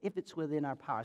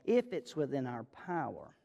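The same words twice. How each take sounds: First: It is said at normal speed. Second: It is said very slowly.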